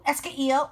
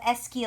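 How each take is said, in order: First: The vowel of que is pronounced before il. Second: The vowel of que is dropped before il. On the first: The speaker calls it wrong. "uh-oh, I don't like that" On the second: The speaker calls it right. "We drop that E. I think that sounds prettier"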